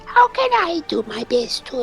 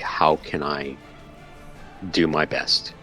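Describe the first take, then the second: First: It is said in a put-on character voice. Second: It is said in the speaker's normal voice.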